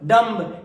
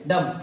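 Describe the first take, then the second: First: The word ends with an audible b sound. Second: The word ends in m, with no b sound. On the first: The speaker calls it wrong. "अभी तक मेरे भाई हम लोग क्या बोलते थे? ... ये सब कुछ भी नहीं होता है" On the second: The speaker calls it right. "M के बाद बी हो तो बी क्या होता है? साइलेंट होता है"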